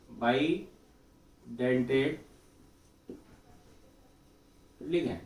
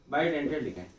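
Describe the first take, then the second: First: bidentate stretched very slowly, long pause, then ligand; drawn-out bidentate, delayed ligand; slow dictation. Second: Said in the usual way. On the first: Real, not acted. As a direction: spell out bidentate slowly as if writing it. Writing out the term while saying it.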